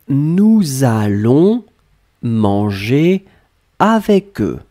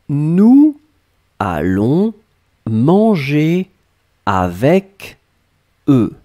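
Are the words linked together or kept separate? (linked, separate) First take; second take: linked; separate. First: Final consonants link into the following vowels. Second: The words are kept apart, without linking sounds. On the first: "And now I will make the liaison" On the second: "I will pronounce it as clearly as I can"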